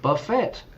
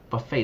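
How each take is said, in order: First: It is said with a Spanish-learner pronunciation. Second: It is said with native English pronunciation. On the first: The speaker calls it wrong. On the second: The speaker calls it right.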